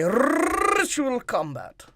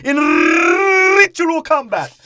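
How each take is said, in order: First: Slow, stretched "ritual combat"; drawn-out imitation. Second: High, loud, very slow mock solemnity. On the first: Shown as a demonstration. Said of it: "exactly how long you say ritual combat". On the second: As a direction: drag out the phrase with hammed-up gravity. Mock solemn general quote.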